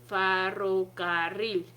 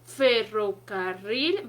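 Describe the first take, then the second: First: The first vowel is changed to an a sound. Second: The first vowel is a clear e sound. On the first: This is how a patient's voice sounds through a stethoscope. "va a decir ferrocarril, ¿sale? Cambia la E por la A" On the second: This is the normal way of saying the word. "al decir ferrocarril"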